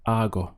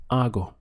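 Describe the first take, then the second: First: Hago said AH-go, the H dropped; silent H in Hago. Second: Hago said AH-go, no H sound at the start; silent H in hago. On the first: Teacher repeating Hago to show the silent H. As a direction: begin Hago on the open vowel, no breath before it. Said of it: "your pronunciation just starts from here". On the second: Teacher modelling Spanish hago for learners, silent H. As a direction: start hago straight on the vowel, ah-go. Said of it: "The H is silent". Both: Shown as a demonstration.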